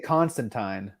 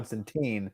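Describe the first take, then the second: First: It is pronounced the British way. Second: It is pronounced the American way. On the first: "In the U K, they say" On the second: "We say"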